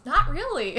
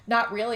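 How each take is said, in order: First: Higher, pointed mock repeat; pointed echo. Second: Said in the usual way. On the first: [name] relaying Mary's answer to the ex, higher pointed echo. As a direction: toss her answer back at him, pitched up.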